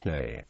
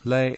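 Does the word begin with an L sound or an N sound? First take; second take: N sound; L sound. First: The word begins with an n sound. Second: The word begins with an l sound. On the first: This is the original pronunciation. "the correct pronunciation" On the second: This is the common everyday usage. "most people pronounce lay in Hong Kong"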